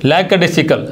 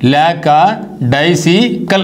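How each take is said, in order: First: The middle 'a' sound is run together or dropped. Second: Each part is said separately, as it is spelled.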